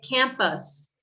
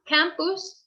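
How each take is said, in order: First: The second vowel is a weak uh sound. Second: The second vowel is a full u sound. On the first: The speaker calls it right. "we say campus" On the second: The speaker calls it wrong. "which would be more like a Spanish pronunciation"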